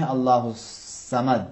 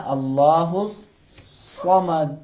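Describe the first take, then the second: First: اللہ الصمد with a thin light seen, the wrong way; teacher shows the mistaken light s. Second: Very slow اللہ الصمد with a thick, full saad; teacher models the correct heavy saad. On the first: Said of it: "سین سے نہیں پڑھنا ہے". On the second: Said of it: "تھوڑا سا حرف سین کو موٹا کریں گے". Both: Shown as a demonstration.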